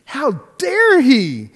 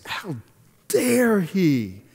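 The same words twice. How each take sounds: First: "How dare he" flung out high, loud and slow; hammed-up fury at "dare"; indignant outburst. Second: A first, contained flash of offence; retold indignation. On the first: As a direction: let the outrage burst through, dragging each word. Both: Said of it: "I got so mad".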